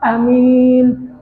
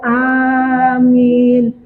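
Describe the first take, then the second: First: The first vowel is kept short. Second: The first vowel is drawn out long.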